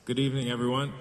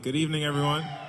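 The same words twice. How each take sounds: First: It is said weakly, with little energy. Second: It is said strongly, with more energy.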